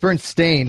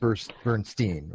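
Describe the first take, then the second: First: The last syllable sounds like 'stain'. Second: The last syllable sounds like 'steen'. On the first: This is the name as it is now spelled. The speaker calls it right. "Now is S-T-A-I-N. Bernstein. It's Bernstein" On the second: This is the name as many people remember it. The speaker calls it wrong. "not Bernstein"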